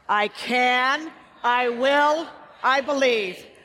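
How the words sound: It is said with strong conviction.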